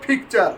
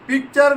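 First: The first p sound has a strong puff of air. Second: The first p sound has no puff of air. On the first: The speaker calls it right. "পি হবে ফ" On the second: The speaker calls it wrong. "পিকচার না"

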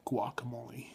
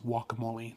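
First: The opening G sound is clearly pronounced. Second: The opening G sound is left silent. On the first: The speaker calls it wrong. "not guacamole. You don't pronounce the G" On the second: The speaker calls it right. "the proper way to say it is guacamole"

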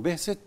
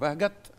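First: The middle consonant is an s sound. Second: The middle consonant is a g sound. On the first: This is how the original and scientific sources say the name. "هم بينطقوا بهست" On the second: This is how the name is said locally in Egypt. "اللي هو اسمه بهجت"

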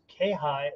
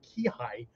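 First: The first syllable is pronounced ke. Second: The first syllable is pronounced ki. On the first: "Different pronunciation" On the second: "Different pronunciation"

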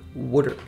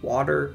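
First: It is said in a Philadelphia accent. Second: It is said in a general accent.

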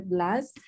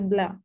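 First: The final S is pronounced. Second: The final S is not pronounced. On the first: The speaker calls it wrong. "Did I pronounce it correct?" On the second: The speaker calls it right. "Without the S"

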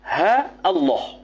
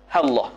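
First: A glottal break separates ha from Allah. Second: Ha runs straight into Allah without a break. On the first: "Qat'ul hamzah" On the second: "Wa wasluha wa waslul hamzah"

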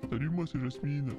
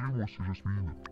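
First: The voice is higher and lighter. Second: The voice is low and deep. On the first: The speaker calls it right. "Voilà" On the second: The speaker calls it wrong. "elle est trop grave cette voix, c'est pas la bonne"

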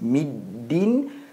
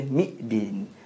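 First: The syllables join smoothly with no catch. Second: A glottal catch breaks the word before the d. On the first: The speaker calls it right. "disambung terus middin" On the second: The speaker calls it wrong. "seolah-olah bunyi hamzah di situ"

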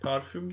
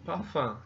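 First: It is said with Turkish pronunciation. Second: It is said with French pronunciation. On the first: The speaker calls it wrong. "Parfüm derseniz bunu Fransızın anlamayacağını görürsünüz" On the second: The speaker calls it right. "Fransızlar parfüm diyorlar"

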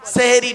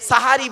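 First: The word is said with 'e' vowels, seheri. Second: The word is said with 'a' vowels, sahari. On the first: The speaker calls it wrong. "সেহেরি নয়" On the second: The speaker calls it right. "খাবারকে আরবিতে সাহারি বলে"

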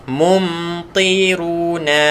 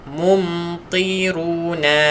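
No difference in how they are said.

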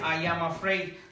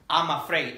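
First: The words 'I am' are said in full. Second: The words 'I am' are contracted to 'I'm'. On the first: The speaker calls it wrong. "no vas a decir" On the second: The speaker calls it right. "tú vas a aprender a decir"

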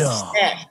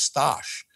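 First: The name is said with an English pronunciation. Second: The name is said with a Polish pronunciation. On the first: The speaker calls it wrong. "not Stash" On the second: The speaker calls it right. "it's actually pronounced Stash, which means Stanley in Polish"

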